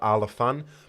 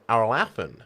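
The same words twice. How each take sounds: First: It is said with British vowels. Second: It is said with American vowels. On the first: "whereas I just say Ala Alafan" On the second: "A lot of Americans say Alafan"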